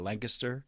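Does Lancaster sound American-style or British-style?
British-style. It is said the British-like Pennsylvania way.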